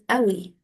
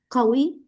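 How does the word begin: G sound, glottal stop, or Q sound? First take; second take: glottal stop; Q sound. First: The word begins with a glottal stop. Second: The word begins with a deep back Q sound. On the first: "En Egipto decimos Awi" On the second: "al lugar de decir como ah, Qawi"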